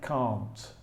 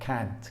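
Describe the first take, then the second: First: It has the British vowel sound. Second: It has the American vowel sound. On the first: "I say can't because I'm from England" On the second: "In American English, they pronounce the negative differently. It's more like can't"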